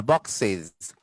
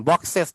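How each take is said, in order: First: "বক্সেস" low, as "box-siz"; iz ending. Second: "বক্সেস" loud, as "box-ses"; wrong es ending. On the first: Teacher correcting a hard word, বক্সেস as box-siz. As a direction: close "বক্সেস" with short i and z. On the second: Teacher showing a hard word's error, বক্সেস as box-ses. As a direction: hit "বক্সেস" with an open e ending. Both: Shown as a demonstration. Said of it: "এই খুব কঠিন উচ্চারণ".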